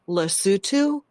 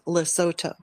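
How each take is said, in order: First: It is said with a British English pronunciation. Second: It is said with an American English pronunciation. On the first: "a British English pronunciation" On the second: "American English pronunciation"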